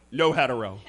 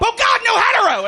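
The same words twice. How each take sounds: First: Low, soft aside; deadpan disclaimer. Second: High-pitched hammed-up cry of alarm; panicked shout. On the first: Acted. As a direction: tack it on low and under your voice. Deadpan tag on bar order. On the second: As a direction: cry out as if horrified by your own words. Acted panic while driving.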